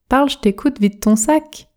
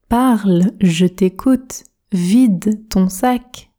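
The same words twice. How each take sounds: First: It is spoken quickly with sounds run together. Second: It is spoken slowly with every word articulated. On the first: "Pratiquons la version rapide, la version express. Je prononce" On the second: "Objectif, articulation"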